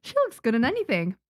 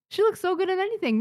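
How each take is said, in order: First: Said in the usual way. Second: "She looks so good" much higher and faster; excited. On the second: Real, not acted. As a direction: gush "so good in anything" high and quick. Gushing over her character design.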